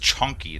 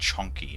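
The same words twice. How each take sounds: First: The word begins with a ch sound. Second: The word begins with a sh sound. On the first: The speaker calls it right. "Like it's chunky" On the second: The speaker calls it wrong. "S H instead of C H"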